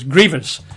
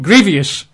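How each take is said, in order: First: The word is said with two syllables. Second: The word is said with an extra syllable. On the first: The speaker calls it right. "The word is grievous" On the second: The speaker calls it wrong. "as mispronounced by huge numbers of people"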